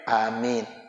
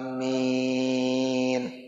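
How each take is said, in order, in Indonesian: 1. Vokalnya dibaca pendek. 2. Vokalnya dipanjangkan. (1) "yang pendek amin" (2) "Biasanya panjang ya, panjang"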